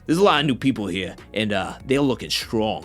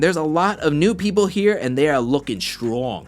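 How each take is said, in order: First: It is said imitating C T's voice. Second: It is said in the speaker's own voice.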